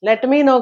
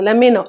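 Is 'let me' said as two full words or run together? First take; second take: two words; run together. First: The t is clearly pronounced in let me. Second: Let me is run together as lemme. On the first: The speaker calls it wrong. "లెట్ మీ నో కాదు" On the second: The speaker calls it right. "లెమ్మీ నో అనేది form"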